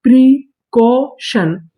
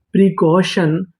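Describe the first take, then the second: First: precaution stretched very slowly, each syllable held; drawn-out blend. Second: Said in the usual way. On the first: Shown as a demonstration. Teacher showing students the whole word precaution, drawn out. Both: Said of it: "तो पूरी meaning".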